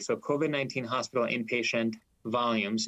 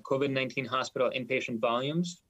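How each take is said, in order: First: The phrase is spoken slowly and deliberately. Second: The phrase is spoken at a normal pace.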